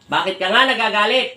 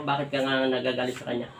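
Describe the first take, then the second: First: Raised, loud questioning with rising end; insistent demand. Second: Said in the usual way. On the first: Real, not acted. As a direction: demand the answer forcefully. Healer insists after no answer.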